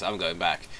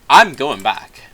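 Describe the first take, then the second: First: Said in the usual way. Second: Much louder, firm and stubborn; louder insistent repeat. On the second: Retold or imitated. Donkey refusing to cross the bridge with Shrek, loud and stubborn. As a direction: dig in and say it louder.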